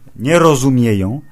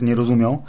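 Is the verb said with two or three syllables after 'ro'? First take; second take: three; two. First: The verb is said in full as 'rozumieją'. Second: The verb is shortened to 'rozumią'. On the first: The speaker calls it right. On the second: The speaker calls it wrong.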